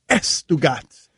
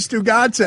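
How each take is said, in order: First: The name starts with an added e vowel. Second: The name starts directly with an s sound.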